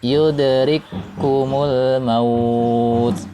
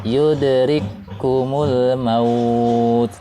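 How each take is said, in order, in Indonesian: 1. Kedua bunyi k menyatu menjadi satu k yang ditahan. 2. Kedua bunyi k menyatu menjadi satu k yang ditahan.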